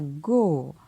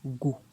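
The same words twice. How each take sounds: First: The syllable is said on a falling tone. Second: The syllable is said on a low tone. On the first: "Et un ton descendant" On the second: "Avec un ton bas"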